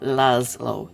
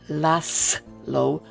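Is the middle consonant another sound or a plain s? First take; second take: another sound; plain s. First: The middle consonant is not a plain s. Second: The middle consonant is a plain s sound. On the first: The speaker calls it wrong. "not Laszlo" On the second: The speaker calls it right. "it's Laszlo"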